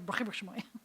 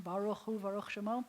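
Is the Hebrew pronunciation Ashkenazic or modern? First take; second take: Ashkenazic; modern. First: It is said in Ashkenazic Hebrew pronunciation. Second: It is said in modern Hebrew pronunciation. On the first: "it's just a different dialect" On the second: "this modern pronunciation"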